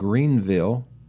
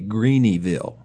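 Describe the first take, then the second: First: The name is said with two syllables. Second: The name is said with three syllables.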